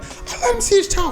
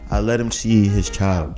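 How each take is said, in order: First: It is said forcefully, with high energy. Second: It is said flatly, with low energy.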